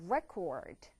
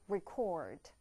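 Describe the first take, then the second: First: The stress is on the first syllable. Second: The stress is on the second syllable. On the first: It is the noun meaning a record. "명사는 기록이 되면서 record" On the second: It is the verb meaning to record something. "동사일 경우에는 이강세"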